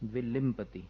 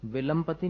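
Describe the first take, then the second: First: The second syllable has an i vowel. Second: The second syllable has a short a vowel. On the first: The speaker calls it right. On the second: The speaker calls it wrong.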